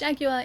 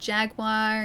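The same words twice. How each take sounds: First: It uses the Australian pronunciation of the word. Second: It uses a regional American pronunciation of the word. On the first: "it's Jaguar in Australia" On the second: "Jaguar in certain places in the United States"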